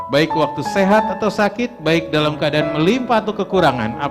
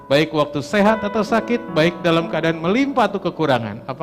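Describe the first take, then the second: The two takes are said the same way.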